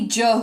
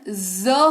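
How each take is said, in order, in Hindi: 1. यह व्यंजन j की आवाज़ है, जैसे jam में। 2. यह व्यंजन z जैसी गूंजती आवाज़ है। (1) "ना कि ज होता है" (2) "जब ये लग जाता है तो इसका उच्चारण ज होता है"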